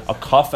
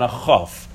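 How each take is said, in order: First: "Kaf" with a hard K; Kaf, hard first consonant; emphasized K sound. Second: "Chaf" with a throaty kh; Chaf, fricative first consonant; lighter CH sound. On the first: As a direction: start "Kaf" on a stopped K. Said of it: "A more emphasized version". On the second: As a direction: start "Chaf" on a Hebrew kh. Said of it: "and a lighter version". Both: Shown as a demonstration.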